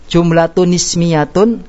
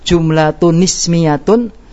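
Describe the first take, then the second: The two takes are said the same way.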